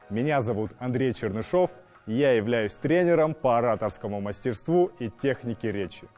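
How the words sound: It is spoken in a low chest register.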